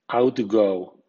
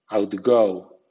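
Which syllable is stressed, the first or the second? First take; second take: first; second. First: The stress is on the first syllable. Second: The stress is on the second syllable. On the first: It is used as a noun. "OUT suena out con acento fuerte ... outgo, nombre" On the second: It is used as a verb. "con acento medio ... outgo, verbo"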